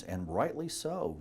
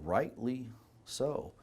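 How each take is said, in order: First: Said in the usual way. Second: "rightly so" drawn out slowly and softly; slow emphatic repeat. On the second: Real, not acted. Doctor judging how future generations will view us, slow and emphatic. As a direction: stretch "rightly", pause, then a softer "so".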